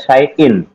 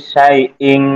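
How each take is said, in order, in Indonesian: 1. Kata ini berakhir dengan bunyi n biasa. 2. Kata ini berakhir dengan bunyi sengau ng. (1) "Bacaannya atau tulisannya syai'in" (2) "Dibacanya menjadi syai'ing"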